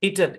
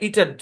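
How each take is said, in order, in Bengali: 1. দ্বিতীয় স্বরটি হালকা, হ্রস্ব 'e'। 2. দ্বিতীয় স্বরটি হালকা, হ্রস্ব 'e'।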